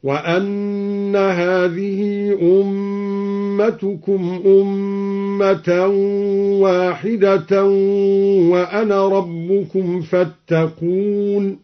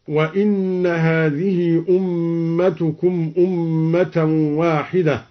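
First: Slow chant, وأن said "wa-anna" with a; long-held recitation, وأن opening on a; recited with fatha. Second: Said in the usual way. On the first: Shown as a demonstration. Teacher demonstrates al-Duri's reading, slowly chanting وأن as "wa-anna". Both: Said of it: "قرأ الدوري بفتح الهمزة".

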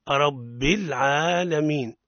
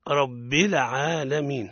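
First: العالمين with a still, silent lam, slow and clean; correct pronunciation. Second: العالمين with the lam not held still, a bounced lam; wrong pronunciation. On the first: Teacher modelling the correct still lam in العالمين. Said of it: "علينا أن نحقق سكون". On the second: Teacher demonstrating a common mistake in العالمين, lam bounced. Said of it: "هذا خطأ". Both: Shown as a demonstration.

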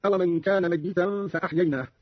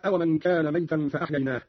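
First: ميتا with held double y and i; doubled ya. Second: Said in the usual way. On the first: Shown as a demonstration. Teacher shows Qalun's reading, ميتا pronounced mayyitan. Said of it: "بتشديد الياء هكذا". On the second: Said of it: "قرأ قالون بتشديد الياء".

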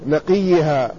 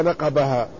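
First: نقيها said naqiha, i after the q; corrected with kasra. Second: نقبها read as naqabaha, with b after the q; misread with B. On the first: Teacher corrects the student's misreading, نقيها said naqiha. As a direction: say نقيها with kasra on qaf, y in place of b. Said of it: "بالكسر". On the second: Student misreads the hadith to his teacher, نقبها said naqabaha. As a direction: say نقبها with open a vowels and a clear b. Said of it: "بفتح النون وبالباء الموحدة بعد القاف". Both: Retold or imitated.

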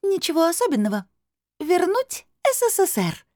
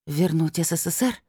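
First: Amused crystal voice. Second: Said in the usual way. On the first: A narrator's reading. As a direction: announce it teasingly in a high bell-like voice. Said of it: "хрустально засмеялся голос". (высоким хрустальным голосом, с усмешкой)

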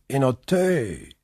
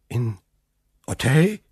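First: Said in the usual way. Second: Startled question. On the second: Acted. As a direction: caught off guard, repeat the name. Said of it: "rief von Villefort".

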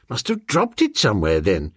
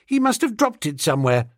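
First: Lightly voiced master, quick then dropping low; musing gentleman. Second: Put-on higher, quick child's voice; offhand schoolgirl. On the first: Master shrugging off his lost case to his valet, musing. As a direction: toss it off, sinking on the last word. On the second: Schoolgirl explaining the found cigarette case, offhand. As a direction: say it lightly and fast as a young girl.

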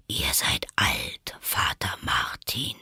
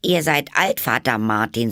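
First: Low, slow, whispered drawl; sleepy caterpillar. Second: High, louder verse recitation; Alice reciting. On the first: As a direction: prompt it drowsily, half whispered. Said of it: "mit schläfriger, langsamer Stimme". (tief, langsam und schläfrig gehaucht) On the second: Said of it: "Alice faltete die Hände und fing an". (hoch und deutlich aufgesagtes Gedicht) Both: A narrator's reading.

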